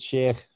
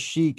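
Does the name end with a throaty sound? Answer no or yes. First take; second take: yes; no. First: The name ends with a throaty final sound. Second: The name ends without a throaty final sound. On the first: This is the technically correct pronunciation. "technically it's Sheikh, probably. There's going to be a at the end of it" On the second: This is how most people say it. "I guess everybody says Sheikh"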